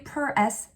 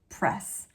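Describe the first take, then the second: First: An extra vowel splits the word into two syllables. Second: The word is said as one syllable. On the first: The speaker calls it wrong. "we don't say" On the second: The speaker calls it right. "We say press"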